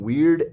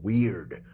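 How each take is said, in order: First: The word sounds approving and admiring. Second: The word sounds disapproving and uneasy. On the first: The person is quirky in a cool, interesting way. "Weird is eclectic and it's cool and it's individual and it's interesting" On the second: The person is strange in a troubling way. "But weird, that's fucking different"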